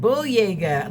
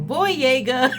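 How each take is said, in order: First: The name is said with careful, clear enunciation. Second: The name is said loosely, in an American way. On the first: This is how the name actually goes. The speaker calls it right. "he probably really enunciated it, ... he said Boyega" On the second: This is how an American would casually say it. The speaker calls it wrong. "as an American, was just all Boyega"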